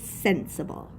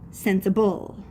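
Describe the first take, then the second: First: The stress is on the first syllable. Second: The stress is on the last syllable. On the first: "because the accent is on the first syllable" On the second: "if the accent was on the end"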